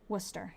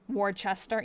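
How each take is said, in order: First: It is said the Massachusetts local way. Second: It is said the way other regions say it. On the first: "that's how we say it. We have a Worcester in Massachusetts" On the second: "that's how some places pronounce it"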